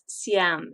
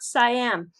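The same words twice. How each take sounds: First: It is said with the Thai pronunciation. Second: It is said with the American pronunciation. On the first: This is how people in Thailand say it. "if you are from Thailand, it is Siam" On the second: This is how people in America say it. "unless you are from America"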